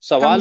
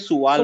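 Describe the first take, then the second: First: The first vowel is an open 'a' sound. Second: The first vowel is a rounded 'u' sound. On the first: This is how it is said in Urdu. "सवाल उर्दू में" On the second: This is how it is said in Arabic. "अरबी में सुवाल बोलते"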